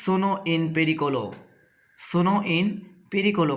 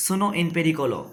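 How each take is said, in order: First: Slow, syllable by syllable; slow demo. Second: Said in the usual way. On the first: Shown as a demonstration. Teacher to new arrivals in Italy, slow careful demo. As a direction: lay out each Italian word slowly for learners. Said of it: "এই কথা বলতে". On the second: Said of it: "এর Italian ভাষা হবে".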